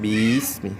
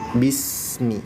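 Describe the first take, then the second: First: The vowel after the first b is drawn out. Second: The vowel after the first b is short. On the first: The speaker calls it wrong. "jangan dipanjangin huruf bi-nya. Jadi jangan bismi" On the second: The speaker calls it right. "maka langsung bismi"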